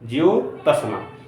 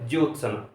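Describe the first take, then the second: First: The word is split with a vowel after t. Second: The word is said quickly with 't' and 's' joined. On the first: The speaker calls it wrong. "क्या ये सही है?" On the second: The speaker calls it right. "जल्दी से बोलेंगे"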